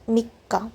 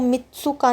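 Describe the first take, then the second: First: A short break comes before a stressed ka. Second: A full tsu syllable sits in the middle. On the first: The speaker calls it right. "बीच में थोड़ा ब्रेक देकर इसको जोर देकर बोला जाएगा" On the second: The speaker calls it wrong. "इसको मित्सुका नहीं बोलेंगे"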